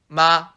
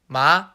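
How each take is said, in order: First: The pitch stays level and flat. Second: The pitch rises upward. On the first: "The first tone goes directly horizontally" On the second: "the second tone goes up"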